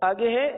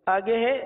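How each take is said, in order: No difference in how they are said.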